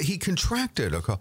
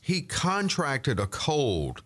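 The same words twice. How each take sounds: First: The stress in 'contracted' is on the second syllable. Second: The stress in 'contracted' is on the first syllable. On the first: The speaker calls it right. "I would say he contracted a cold" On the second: The speaker calls it wrong. "now people are using it as the noun as a verb"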